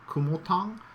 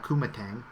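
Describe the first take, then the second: First: The name is said with Chinese-like sounds. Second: The name is said with English sounds. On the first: The speaker calls it right. "I think it's actually pronounced Ku Kumotang" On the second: The speaker calls it wrong. "I'm anglicizing it"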